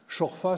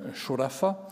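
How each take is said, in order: First: It is said in the local Moroccan pronunciation. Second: It is said in the classical Arabic pronunciation. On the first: "c'est comme ça qu'on le prononce de manière, disons, euh, euh, locale" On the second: "en arabe classique, ce serait"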